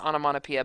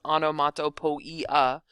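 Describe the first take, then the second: First: It is said in its usual everyday form. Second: It is sounded out closely following its spelling. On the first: This is how the word is normally said. "For pronunciation's sake" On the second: This helps get the ending spelling correct. "for spelling sake, I like to pronounce it"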